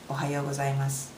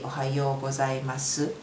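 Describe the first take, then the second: First: It is said fast with a light, clipped ending. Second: It is said with a full final syllable. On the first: "it was really fast, but at the end, did you hear it?" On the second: "It's supposed to be"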